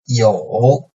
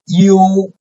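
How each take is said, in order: First: The pitch dips low, then rises slightly. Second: The pitch stays high and level.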